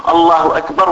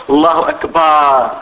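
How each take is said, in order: First: Said in the usual way. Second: Slower, أكبر ending in a long "baaar"; long alif in akbar. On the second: Shown as a demonstration. Teacher contrasting meanings for students, أكبر stretched to "akbaar". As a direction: lengthen the last vowel of أكبر to "akbaar". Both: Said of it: "راح المعنى، تغير".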